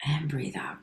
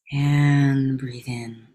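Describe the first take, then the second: First: Whispered exhale cue; soft whispered coaching; whispered breathing cue. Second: Very slow, drawn-out cue to inhale; unhurried coach cue; slow breathing cue. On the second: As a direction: stretch the words out like a long inhale. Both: Acted.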